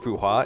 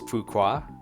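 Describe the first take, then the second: First: The middle of the name has no K sound. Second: The middle of the name has a K sound. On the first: "Instead of Fuhua" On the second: "Like F U and then K A H?"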